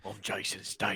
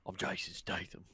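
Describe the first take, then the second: First: Lightly put-on English accent, soft and low; Jason Statham voice. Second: Put-on much softer, murmured English accent; Jason Statham voice. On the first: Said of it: "that's how I can get in his voice". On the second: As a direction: reset into Statham's English accent, near whisper. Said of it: "You gotta keep the voice".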